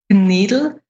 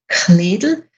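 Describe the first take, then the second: First: It has a soft, unaspirated G-like K and a D. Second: It has a strongly aspirated K and a clear D.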